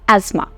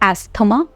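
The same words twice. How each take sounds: First: No 'th' sound is heard mid-word. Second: A clear 'th' sound is heard mid-word. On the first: The speaker calls it right. "it's asthma" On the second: The speaker calls it wrong. "it's incorrect pronunciation"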